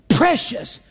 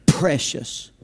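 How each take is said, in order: First: "Precious." said higher, with a clear falling tune; lifted "Precious.". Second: "precious." said much lower and softer, falling away; soft dropped "precious.". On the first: Preacher repeating the psalm's word to the church, higher and lifted. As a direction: lift "Precious." up, then let it fall. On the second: Preacher savouring the psalm's word for the church, low and soft. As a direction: let "precious." sink low and quiet. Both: Shown as a demonstration. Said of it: "there it is".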